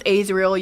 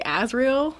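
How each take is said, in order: First: Azriel said AYZ-riel; long A starting Azriel. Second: Azriel said AZ-riel; short flat A starting Azriel. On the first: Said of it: "I pronounce Azriel". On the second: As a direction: say Azriel as AZ-reel. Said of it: "You say Azriel?". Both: Shown as a demonstration.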